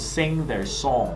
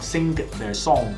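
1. ng结尾，没有g音。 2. ng后面接一个硬的g音。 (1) "咁就OK 嘅啦" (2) "個G 字會走出嚟嘅"

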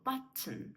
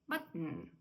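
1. Середнє t вимовляється з видихом повітря. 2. Середнє t обривається без видиху повітря. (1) "Ми з вами знаємо button" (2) "Але в американців button"

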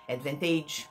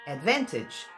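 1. A última sílaba soa como a palavra age. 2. A última sílaba tem um som de i curto. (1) "se eu falo age aqui eu falo average, courage, mortgage, advantage" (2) "você vai pronunciar como se fosse um i curtinho"

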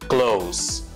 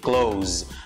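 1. A palavra termina com um s sibilado. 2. A palavra termina com um z vibrado. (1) "Mas se for adjetivo, perto, close. S" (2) "vai ter som de Z"

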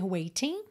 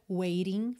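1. A consoante do meio é um t nítido. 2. A consoante do meio é um som batido e rápido. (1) "Claro que também poderia ser waiting" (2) "o que é muito comum no sotaque americano é fazer o rarará"

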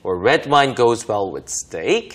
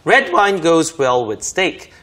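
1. 문장 끝에서 억양이 올라가요. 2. 문장 끝에서 억양이 내려가요. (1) "이렇게 끝으로 올려서 해볼 수 있습니다" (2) "내려주면 잘 어울린다 이런 말이 되겠죠"

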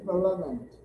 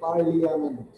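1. 'l' के बाद कोई स्वर उच्चारित नहीं होता। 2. 'l' के बाद 'i' स्वर उच्चारित होता है। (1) "We say Parliament. We don't use I" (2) "We never say Parliament"

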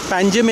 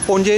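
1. नाम 'Panjim' की तरह बोला जाता है, m पर खत्म होता है। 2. नाम 'Ponje' की तरह बोला जाता है, जो स्वर पर खत्म होता है। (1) "Panjim in English" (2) "Ponje in Konkani"

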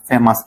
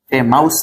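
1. শেষের অংশ ছোট 'us' হিসেবে উচ্চারিত হয়। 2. শেষের অংশ 'ous' উচ্চারিত হয়, ডিফথং সহ। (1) "মানে ও ইউএস উচ্চারণ কি আস" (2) "ফেমাস না"

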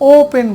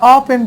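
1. প্রথম স্বরধ্বনিটি একটি গোলাকার 'oh' ধ্বনি। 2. প্রথম স্বরধ্বনিটি একটি খোলা 'ah' ধ্বনি। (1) "এটা ও পেন বলি" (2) "এই আ পেন বলি না"

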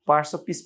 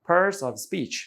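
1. শেষ শব্দটি সাধারণ 'p' ধ্বনি দিয়ে শুরু হয়। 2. শেষ শব্দটি 'sp' ধ্বনি দিয়ে শুরু হয়।

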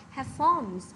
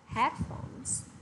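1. Trọng âm nằm ở âm tiết thứ hai. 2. Trọng âm nằm ở âm tiết thứ nhất. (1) "thay vì chúng ta đọc là headphones" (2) "sẽ nhấn mạnh vào âm tiết đầu tiên, đó là âm head"

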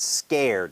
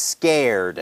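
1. พูดด้วยสำเนียงอเมริกัน 2. พูดด้วยสำเนียงอเมริกัน

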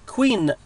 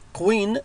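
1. تبدأ بصوت k عادي. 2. تبدأ بصوت q عميق من الحلق. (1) "it's ك" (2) "لا نقول مثلا كوين"

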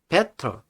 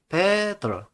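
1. 가운데 자음은 확실한 T 소리예요. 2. 가운데 자음은 D 소리에 가까워요.

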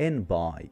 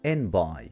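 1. الـ d في آخر 'end' يُحذف. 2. الـ d في آخر 'end' يُحذف.

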